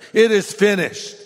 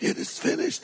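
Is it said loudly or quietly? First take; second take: loudly; quietly. First: It is cried out loudly and strongly. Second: It is said quietly and weakly.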